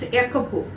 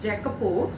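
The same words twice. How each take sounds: First: The name is said with an Italian pronunciation. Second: The name is said with an English pronunciation. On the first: The speaker calls it right. "in Italy they'll pronounce in such a way" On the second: The speaker calls it wrong. "you should not say as Jacopo"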